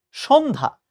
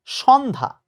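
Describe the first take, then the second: First: সন্ধ্যা with a closed o, "shon-dha"; correct pronunciation. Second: সন্ধ্যা slowly with open vowel, "shawn-dha"; wrong pronunciation. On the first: Teacher telling students what to remember, correct সন্ধ্যা as "shon-dha". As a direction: round the first vowel of সন্ধ্যা, "shon-dha". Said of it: "আমরা মনে রাখবো". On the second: Teacher rejecting the common error, slow wrong সন্ধ্যা as "shawn-dha". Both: Shown as a demonstration.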